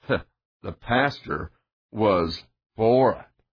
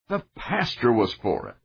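First: The sentence is said in a gloomy tone. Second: The sentence is said in a joyful tone. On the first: "the tone makes the difference" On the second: "a man might joyfully say to one group"

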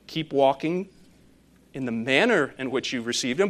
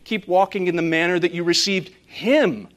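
First: The word him is not stressed. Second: The word him is stressed.

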